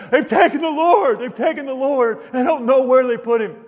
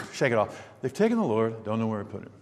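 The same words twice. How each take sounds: First: Distraught crying plea. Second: Soft, low, offhand shrug; casual, indifferent mumble; shrugging it off. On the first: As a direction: cry it out like a heartbroken mourner who lost everything. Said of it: "imagine her just crying". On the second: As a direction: say it as if it hardly matters. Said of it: "I can't imagine her just saying". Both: Retold or imitated.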